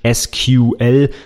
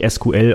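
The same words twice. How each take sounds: First: The letters are spelled out with English letter names. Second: The letters are spelled out with German letter names. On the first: "auf Englisch" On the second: "Auf Deutsch ist das schon hakelig"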